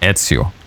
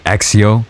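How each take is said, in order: First: The middle consonant does not sound like 'ks'. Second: The middle consonant sounds like 'ks'. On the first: The speaker calls it right. "But no, it's pronounced Ezio" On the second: The speaker calls it wrong. "pronouncing it wrong. They either say Exio"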